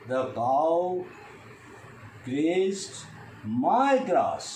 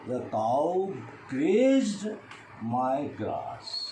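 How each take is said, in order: First: The stress falls on the word my. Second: The stress falls on the word grazed. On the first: It was not anybody else's grass. "I stress on my" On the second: Grazing is what the cow did. "Now I stress on the grazed"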